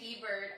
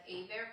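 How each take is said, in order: First: The name is said with the H and T sounded. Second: The name is said with the H and T silent. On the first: The speaker calls it wrong. "people would mis- mispronounce our last name. So people would say Hebert all the time" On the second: The speaker calls it right. "said Abear properly"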